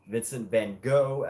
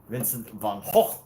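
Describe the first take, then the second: First: It is said the American way. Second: It is said the Dutch way.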